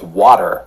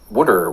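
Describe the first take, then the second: First: It is said in a General American accent. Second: It is said in a Philadelphia accent.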